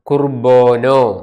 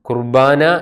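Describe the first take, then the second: First: The second syllable has an 'o' vowel. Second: The second syllable has an 'a' vowel. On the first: This is the Western dialect form. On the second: This is the Eastern dialect form.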